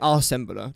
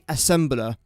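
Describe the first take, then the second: First: The first syllable has a long 'ar' vowel. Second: The first syllable has a short 'a' vowel. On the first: The speaker calls it wrong. "I wouldn't say arsembler" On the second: The speaker calls it right. "I say assembler"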